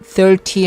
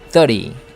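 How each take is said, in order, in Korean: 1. t 소리는 완전히 발음됩니다. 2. t 소리는 생략되거나 약해집니다. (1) "thirty 할 수 있지만" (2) "t를 죽였죠. 그래서 thirty"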